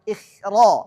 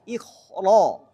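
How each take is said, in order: First: The kha is pronounced thin and light. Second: The kha is pronounced thick and heavy. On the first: The speaker calls it wrong. "Enggak boleh ikh" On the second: The speaker calls it right. "tapi ikhra"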